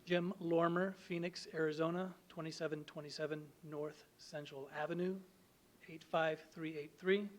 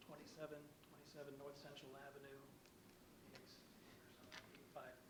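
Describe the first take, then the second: First: Louder, closer to the mic; speaking up. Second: Soft, fading away from the mic; mumbling off-mic, barely audible; too quiet. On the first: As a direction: project clearly for the room. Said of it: "Could you speak up". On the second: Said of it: "Could you speak up, please, or down in the microphone?". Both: Real, not acted.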